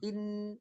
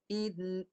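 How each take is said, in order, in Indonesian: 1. Vokalnya langsung menyambung ke n. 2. Vokalnya ditahan sebentar sebelum n. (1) "Yang salah" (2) "Yang betul"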